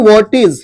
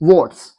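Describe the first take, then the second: First: It is said as two full separate words. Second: It is squeezed into one short contracted word. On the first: "आप use करते हो व्हाट इज" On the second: "short में हम कह सकते हैं वोट्स"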